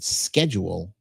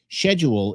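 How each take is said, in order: First: The word is said in an American way. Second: The word is said in a British way. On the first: "but schedule makes more sense" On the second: "Schedule is British"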